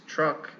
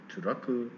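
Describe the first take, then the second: First: The consonants are joined with no extra vowels. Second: Extra vowels are inserted between and after consonants. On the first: The speaker calls it right. "It's truck" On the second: The speaker calls it wrong. "it's not turaku"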